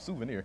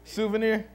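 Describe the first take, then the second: First: The word has a standard, careful pronunciation. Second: The word has a Southern, Mississippi-style pronunciation. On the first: "Feel proper" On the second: "Blame it on Mississippi"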